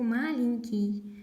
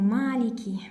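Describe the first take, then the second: First: The first vowel is short. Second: The first vowel is drawn out long. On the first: The speaker calls it wrong. "Я очень часто слышу эту ошибку" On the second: The speaker calls it right. "Мы тянем"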